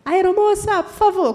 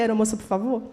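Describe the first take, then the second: First: "Aeromoça, por favor" called out loud and high; calling out. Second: Said in the usual way. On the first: Retold or imitated. To the flight attendant, calling out loudly for help. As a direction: call the flight attendant across the cabin, much louder and higher. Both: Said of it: "Quando eu falei".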